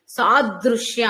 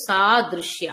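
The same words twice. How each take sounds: First: సాదృశ్య slow and heavily pressed; pressed too hard. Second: సాదృశ్య said lightly, like a single syllable; light stress. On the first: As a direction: lean hard on సాదృశ్య, the wrong way. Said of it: "అనకూడదు". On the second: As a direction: let సాదృశ్య slip out easy, no push. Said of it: "అంత తేలిగ్గా పలకాలి". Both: Shown as a demonstration.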